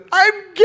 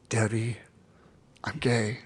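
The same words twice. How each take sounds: First: High, loud yell; shouted confession. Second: Softer, hesitant confession; quiet confession. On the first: Yelling it at his coach who couldn't hear, loud. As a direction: blurt it out at full volume. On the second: Telling his coach the secret for the first time, quietly. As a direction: barely get the words out, held back. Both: Retold or imitated.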